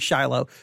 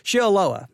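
First: The name is said with two syllables. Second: The name is said with three syllables. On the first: The speaker calls it wrong. "I think I was saying Shiloh" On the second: The speaker calls it right. "Shiloah, there you go"

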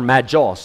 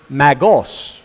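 First: The middle consonant is a J sound. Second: The middle consonant is a hard G sound.

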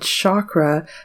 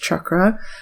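First: It is said with the common Western pronunciation. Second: It is said with the original, non-Western pronunciation. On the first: This misrepresents the word's origins. The speaker calls it wrong. "in the West we said chakra" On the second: This reflects the word's origins in the East. The speaker calls it right. "the original pronunciation was chakra"

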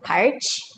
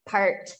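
First: The word ends with a ch sound. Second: The word ends with a t sound. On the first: The speaker calls it wrong. "the tendency for Brazilians is to say something like parch" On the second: The speaker calls it right. "let me think of a word, like part"

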